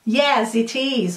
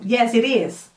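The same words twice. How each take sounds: First: "it is" slow, with a clear t; careful, slow "it is" for learners; separated pronunciation. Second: "it is" run together with a tapped t; "it is" joined into one flowing word; linked pronunciation. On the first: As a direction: say "it is" as two distinct words. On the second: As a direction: link "it is" like "ih-riz". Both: Shown as a demonstration. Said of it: "Tô dando as duas pronúncias".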